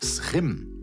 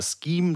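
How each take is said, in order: First: It starts with a throaty Dutch sch sound. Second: It starts with a hard sk sound. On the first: "Wenn du es ganz korrekt machen willst, ... geht es ins Holländische" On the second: "du kannst es auch englisch aussprechen"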